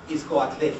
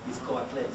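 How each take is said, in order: First: "Itzcoatle" ending in a clear e; Itzcoatle with final e. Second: "Itzcoatle" repeated softer and lower; Itzcoatle, quieter. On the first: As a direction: say "Itzcoatle" with the added final vowel. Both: Shown as a demonstration. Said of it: "I say what?".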